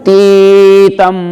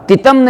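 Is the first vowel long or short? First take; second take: long; short. First: The first vowel is long. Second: The first vowel is short. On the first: The speaker calls it right. "फिर ती के बड़ी की मात्रा" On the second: The speaker calls it wrong. "तितम नहीं"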